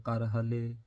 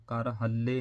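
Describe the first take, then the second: First: ਕਰ ਹਲੇ with a single, undoubled ਲ; ਕਰ ਹਲੇ, no stress mark doubling the ਲ; correct pronunciation. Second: ਕਰ ਹੱਲੇ with a long double ਲ; doubled consonant. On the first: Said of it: "ਏਦਾਂ ਕਰਕੇ". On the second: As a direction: hold the l in ਹੱਲੇ. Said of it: "ਅੱਧਕ ਲਾ ਕੇ ਨਹੀਂ ਪੜ੍ਹਨਾ". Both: Shown as a demonstration.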